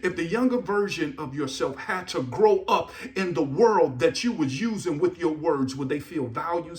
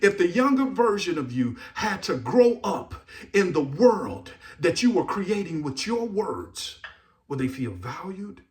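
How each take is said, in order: First: It is said at a faster pace. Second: It is said at a slow pace.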